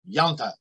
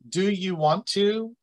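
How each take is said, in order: First: It is said fast, squeezed together. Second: It is said slowly, all syllables clear.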